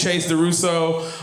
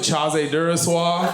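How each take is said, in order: First: The name is pronounced in a plain, ordinary way. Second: The name is pronounced in a fancy, sexy way. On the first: "It is Chase DeRusso" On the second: "when I'm drinking red wine, I like to pronounce it"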